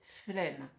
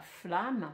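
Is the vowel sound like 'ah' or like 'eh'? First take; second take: eh; ah. First: The vowel is an 'eh' sound. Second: The vowel is an open 'ah' sound. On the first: The speaker calls it right. "mais flemme" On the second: The speaker calls it wrong. "On ne dit pas flamme"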